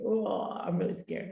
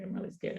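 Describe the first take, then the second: First: Slow, softer mock fright; mock scared. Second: A whispered mock fright; retold fear, whispered. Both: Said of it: "it was really scary".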